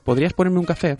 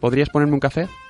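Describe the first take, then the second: First: The request sounds authoritative and commanding. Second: The request sounds soft and less commanding.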